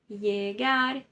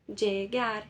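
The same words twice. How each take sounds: First: The double L sounds like a y. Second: The double L sounds like dj. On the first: This is the Spanish accent. "na Espanha, eles leem isso como se fosse uma letra I" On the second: This is the accent of some other countries. "uma terceira pronúncia possível, né? Que é o som de D J"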